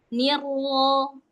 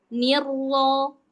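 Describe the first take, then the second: Both takes have the same delivery.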